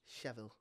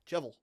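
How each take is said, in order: First: It is said the standard, non-northern way. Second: It is said the northern way.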